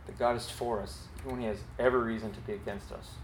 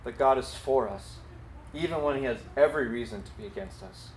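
First: Softer, quicker repeat of the line; soft, fast echo of the line; quiet repeat. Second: "God" and "every" pressed firmly; emphatic statement. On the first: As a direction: say it again gently, letting it sink in. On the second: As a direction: stress on every, said clearly. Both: Shown as a demonstration. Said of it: "And grace means".

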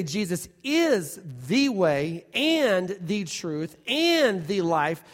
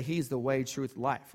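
First: Slow, each "and" given weight in "the way and the truth and the life"; stress on and. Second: "He's the way, truth, life" run together with no "and"; a lazy, flat list without "and". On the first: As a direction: stack the three with a strong "and". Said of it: "when we say". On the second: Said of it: "we get lazy in our language and we say". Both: Shown as a demonstration.

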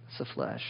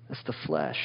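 First: Whispered, breathy echo; whispered repeat. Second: Much lower, murmured verdict; low aside. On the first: Preacher to congregation, whispered warning. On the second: Preacher to congregation, low and heavy. Repeated for emphasis. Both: Shown as a demonstration.

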